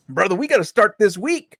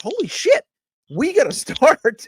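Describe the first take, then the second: First: Said in the usual way. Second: High, laughing "holy shit" realisation; shocked exclamation. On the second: Retold or imitated. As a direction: blurt it out in amused disbelief. Retelling own shocked realisation.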